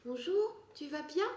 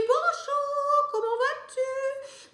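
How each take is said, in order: First: Put-on higher, softer little-girl voice; lightly voiced little-girl princess. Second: Very high, sung-out princess greeting; slow, very high princess voice; princess head voice. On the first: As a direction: sound like a small girl playing princess. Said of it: "une princesse avec une voix de petite fille". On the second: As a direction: float it up like a fairy-tale princess. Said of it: "avec une voix de tête". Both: Shown as a demonstration.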